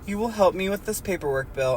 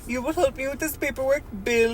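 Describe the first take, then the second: First: It is read in a plain, neutral accent. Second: It is read in a put-on Russian accent. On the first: The speaker calls it wrong. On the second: The speaker calls it right.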